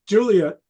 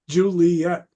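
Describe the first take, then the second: First: Two syllables, stressed on the first. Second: Three syllables, with a later stress. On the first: The speaker calls it right. "It's a two syllable word" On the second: The speaker calls it wrong. "It's not a three syllable word"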